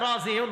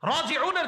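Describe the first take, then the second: First: The word is pronounced with loose, altered sounds. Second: The word is pronounced with careful Arabic sounds. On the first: The speaker calls it wrong. "অশুদ্ধভাবে পড়ে" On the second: The speaker calls it right. "রাজিউনের জায়গায়"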